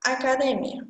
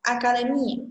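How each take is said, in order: First: Academia with stress on the syllable mi, Portuguese way. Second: Academia with stress on the syllable de, Spanish way. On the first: Teacher contrasting Portuguese pronunciation for students, stress on mi. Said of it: "A pronúncia em português é academia". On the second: Teacher modelling Spanish pronunciation for students, stress on de. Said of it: "em espanhol, sua pronúncia mais forte é o D e E". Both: Shown as a demonstration.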